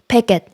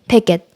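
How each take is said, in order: Both takes have the same delivery.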